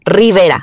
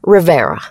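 First: It is said with a Spanish accent. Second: It is said with an American accent.

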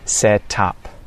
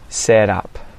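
First: The T is clearly and fully released. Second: The T is a quick flap like D. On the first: "the well-enunciated T" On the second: "with the T flap"

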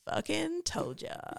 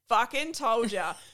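First: The voice is low and creaky, in vocal fry. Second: The voice is normal, in a broad Australian accent. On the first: "this is the last vocal fry I think" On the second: "in my normal, broad, disgusting Australian accent"

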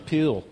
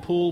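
First: The vowel is short, close to 'pill'. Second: The vowel is a long 'oo' sound. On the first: "we go to swim in the pill" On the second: "We don't go for a swim in the pool"

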